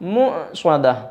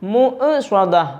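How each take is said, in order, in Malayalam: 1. ഗ്ലോട്ടൽ സ്റ്റോപ്പ് പ്രതിധ്വനി ഇല്ലാതെയാണ് പിടിച്ചുനിർത്തുന്നത്. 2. ഗ്ലോട്ടൽ സ്റ്റോപ്പ് പ്രതിധ്വനിക്കുന്ന കുതിപ്പോടെയാണ് വിടുന്നത്. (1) "ആ സുക്കൂനായ ഹംസ അങ്ങനെ കേൾക്കാവൂ" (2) "മുഅ്സദ എന്ന് പറയരുത്"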